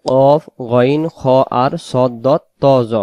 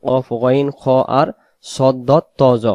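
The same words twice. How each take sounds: The two takes are said the same way.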